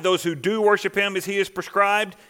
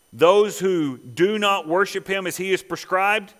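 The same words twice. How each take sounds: First: "do" leaned on, raised pitch; emphatic "do", then carry straight on through "worship"; stress on DO. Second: Slow, deliberate weight on "do not"; "do not" spaced out and stressed. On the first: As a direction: set "do" up as the contrast. Contrast with those who do not. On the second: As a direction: set "do not" apart with firm emphasis. Contrast with those who do. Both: Shown as a demonstration.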